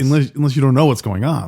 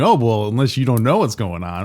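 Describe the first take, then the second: First: It sounds worried, like genuine concern. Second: It sounds confrontational, like pushing back.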